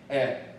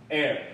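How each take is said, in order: First: Said in a British accent, without a final r. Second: Said in an American accent, with a final r. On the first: "英国人念air" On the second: "美国人念air"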